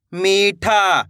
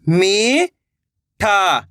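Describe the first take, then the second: First: Said in the usual way. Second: "मीठा" split into two long syllables. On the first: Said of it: "तो मिलके बन जाएगा". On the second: Shown as a demonstration. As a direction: draw out मी, pause, then ठा in "मीठा". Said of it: "एक एक अक्षर का उच्चारण". ("मीठा" को तोड़कर, मी... ठा)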